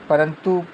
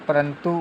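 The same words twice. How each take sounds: No difference in how they are said.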